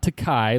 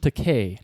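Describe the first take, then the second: First: The last syllable does not rhyme with pay. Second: The last syllable rhymes with pay. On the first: The speaker calls it wrong. "like you've insisted on pronouncing it for the last forty years" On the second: The speaker calls it right. "Remember Takei, like in to pay"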